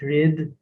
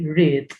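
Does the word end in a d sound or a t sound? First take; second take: d sound; t sound. First: The final consonant sounds like a d. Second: The final consonant sounds like a t. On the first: The speaker calls it wrong. "You don't say it read" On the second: The speaker calls it right. "You say read"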